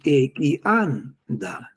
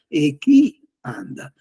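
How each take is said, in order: First: The 'chi' syllable carries no accent. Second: The 'chi' syllable carries the accent. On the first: It means a cut banana stump. "Se invece pronunci e chi anda, quello è il ceppo di banano tagliato" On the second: It means family. "ho messo la I maiuscola... Normalmente si mette un accento... Questa è la famiglia"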